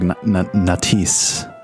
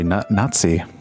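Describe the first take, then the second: First: The name sounds like 'Nat-ice'. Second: The name sounds like 'Nazi'. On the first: The speaker calls it wrong. "I've been saying it wrong this whole time. I've been saying it like" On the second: The speaker calls it right. "But it's actually"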